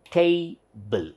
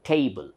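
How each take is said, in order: First: TABLE split as tay, pause, bl; syllable by syllable. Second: Said in the usual way. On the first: Shown as a demonstration. Teacher counts two mouth openings, syllable by syllable. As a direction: break "table" into two separate strokes. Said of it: "once I say tay". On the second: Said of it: "This is two syllables".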